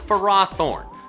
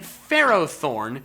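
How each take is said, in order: First: The first part sounds like 'ferocity'. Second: The first part sounds like 'ferrum'. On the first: This is the official pronunciation. The speaker calls it wrong. "the official anime pronunciation of this Pokemon is Ferrothorn" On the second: The name comes from iron and thorn. The speaker calls it right. "my own correct one by pronouncing it Ferrothorn, because its name is intended to be a combination of Ferrum or Ferris and Thorn"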